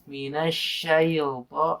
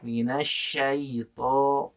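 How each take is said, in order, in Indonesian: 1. Bunyi l tambahan ditambahkan setelah 'shay'. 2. Tidak ada bunyi l yang ditambahkan setelah 'shay'. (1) "ketika syai itu menjadi ada huruf lamnya" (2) "dengan menekan ke huruf ya-nya dulu"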